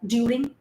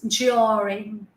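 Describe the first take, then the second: First: The d at the start is a plain d. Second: The d at the start sounds like j. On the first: The speaker calls it wrong. "we never say this Hindi sound during" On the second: The speaker calls it right. "During, j sound"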